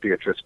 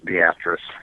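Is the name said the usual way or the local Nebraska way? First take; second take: usual; local Nebraska. First: It has the usual pronunciation of the name. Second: It has the town's own local pronunciation. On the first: This is how the name is commonly said. "a town called Beatrice" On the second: This is how the town's name is said locally. "but it's pronounced Beatrice"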